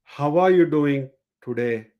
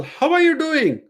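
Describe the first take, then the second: First: "How are you doing today?" dropping low at the end; falling command tune. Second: "How are you doing?" sung up high with the end lifted; rising question tune. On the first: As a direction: land the end down, firm. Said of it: "with a lower tone". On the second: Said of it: "ending the statement with a raised tone". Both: Shown as a demonstration.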